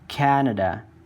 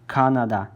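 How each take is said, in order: First: The word is pronounced as in English. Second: The word is pronounced as in Uyghur. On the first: The speaker calls it wrong. "I pronounced this uh, in English" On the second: The speaker calls it right. "we uh, read this uh, word as Canada"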